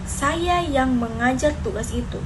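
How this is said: The stress falls on the word saya. It was me and not someone else. "Penekanan pada saya"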